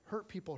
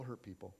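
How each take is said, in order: First: "Hurt" lifted and stressed as the describing word; stress on Hurt as adjective. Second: "hurt" said low and much softer as the verb; hurt dropped low. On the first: Pastor teaching his congregation a saying, stressing "Hurt" as adjective. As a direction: say "Hurt people" naming the wounded ones. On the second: Pastor finishing the saying to his congregation, dropping low and soft. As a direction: let "hurt people" fall away quietly as the action. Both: Shown as a demonstration.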